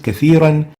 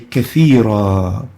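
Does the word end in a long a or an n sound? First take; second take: n sound; long a. First: The word ends with an n sound. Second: The word ends with a lengthened a vowel. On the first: The reciter continues on to the next word. "pronounced as if there's a noon at the end" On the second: The reciter stops on this word. "when we stop on it, we will say kathira"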